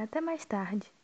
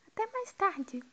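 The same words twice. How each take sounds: First: Said in the usual way. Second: "Até mais tarde" said much higher, falling on "mais"; sing-song high goodbye; high pitched farewell. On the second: Shown as a demonstration.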